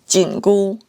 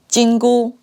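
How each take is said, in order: First: Jingu is said with the tones for tightening. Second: Jingu is said with the tones for golden. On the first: It names the tightening band. "the tightening band" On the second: It names the golden band. "The golden band"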